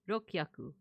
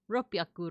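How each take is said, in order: First: The u vowel is dropped between k and h. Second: A p sound replaces the k and h. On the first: This is a guessed middle stage. "you tend to drop the vowel" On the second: This is the modern form. "somehow this became a p"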